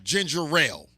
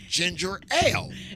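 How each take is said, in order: First: An r sound is added before ale. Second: No r sound is added before ale. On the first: The speaker calls it wrong. "I was putting a railing on it" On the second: The speaker calls it right. "I looked at the can and it said ginger ale"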